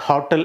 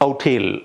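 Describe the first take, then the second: First: The word starts with an h sound. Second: The word starts directly with a vowel. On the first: The speaker calls it wrong. "ഹോട്ടൽ എന്ന് പ്രനൗൺസ് ചെയ്യില്ല" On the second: The speaker calls it right. "എച്ച് ഇല്ല, എച്ച് silent ആണ്"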